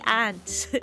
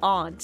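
First: The word is said in a plain, unposh way. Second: The word is said in a posh way. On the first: This is the normal way to say it locally. The speaker calls it right. "you say aunt" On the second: Saying it this way makes one sound posh. The speaker calls it wrong. "You don't say aunt"

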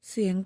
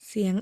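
No difference in how they are said.

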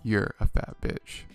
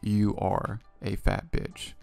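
First: You and are are merged into one syllable. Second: You and are are said as separate words. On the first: The speaker calls it right. "It's you're a fat bitch" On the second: The speaker calls it wrong. "they use you're instead of you are"

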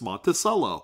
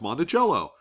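First: The ending does not sound like the instrument cello. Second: The ending sounds like the instrument cello.

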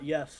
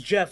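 First: The name begins with a 'y' sound. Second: The name begins with a 'j' sound. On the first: The speaker calls it wrong. "not Yef, or anything weird like that" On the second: The speaker calls it right. "It's Jeff"

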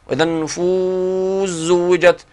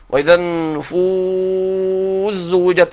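First: The long vowel in النفوس is held moderately. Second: The long vowel in النفوس is held longest.

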